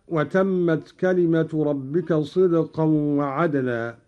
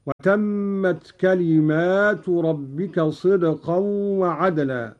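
First: Said in the usual way. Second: «كلمات» in the plural, with a long alif after the mim; «كلمات» said slowly, the alif after the mim drawn out; plural reading. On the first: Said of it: "قرأ قالون بألف بعد الميم". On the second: Shown as a demonstration. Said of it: "هكذا". («كلمات» بألف بعد الميم على الجمع)

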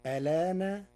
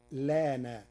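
First: "ألان" said alaana, opening on a vowel; "ألان" as a-LAA-na, first hamza pronounced; hamza kept. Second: "لان" said laana, opening straight on l; "لان" as LAA-na, first hamza left off; hamza dropped. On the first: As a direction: say "ألان" loud and higher, starting with a before the l. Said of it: "فتصير الكلمة هكذا". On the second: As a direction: say "لان" with no vowel before the l. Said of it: "وحذفها،". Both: Shown as a demonstration.

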